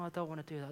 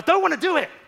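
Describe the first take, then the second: First: It is said calmly, without shouting. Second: It is snapped out angrily and loudly.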